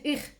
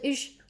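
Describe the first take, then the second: First: The ch sound is said without aspiration. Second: The ch sound is said with aspiration. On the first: "en vez de decir ich" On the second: "en una zona de Alemania se aspira"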